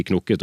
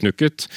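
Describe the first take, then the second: First: "knukket" said with an o, as knokket; o-pronunciation. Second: "knukket" said with a u, as spelt; u-pronunciation. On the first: Guest advises on the preferred form, o-sound in "knukket". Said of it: "så bør man si". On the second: Guest warns against this form, u-sound in "knukket". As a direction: say "knukket" with u, not o. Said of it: "og ikke knukket". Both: Shown as a demonstration.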